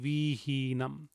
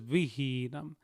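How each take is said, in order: First: Both i vowels are said long. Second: The first i is short, the second long. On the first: "If both the I's had a bar, it would be vihinam" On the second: "The first I doesn't have a bar, the second I has a bar. So it is vihinam"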